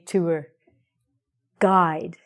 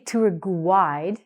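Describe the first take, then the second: First: No U sound is heard after the G. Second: A U sound is heard after the G. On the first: The speaker calls it right. "we say tour guide" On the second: The speaker calls it wrong. "We don't say tour guide"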